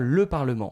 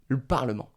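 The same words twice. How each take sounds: First: The vowel in 'le' is fully pronounced. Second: The vowel in 'le' is dropped. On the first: The article is the first word of the sentence. "On va vraiment prononcer normalement le, le son E" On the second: The article is in the middle of the sentence. "Donc on va manger le E"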